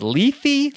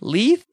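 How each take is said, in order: First: The word ends with an added 'ee' vowel. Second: The word ends without an added 'ee' vowel. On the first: "how do you pronounce it? Leithy?"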